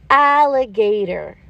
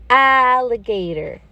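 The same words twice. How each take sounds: The two takes are said the same way.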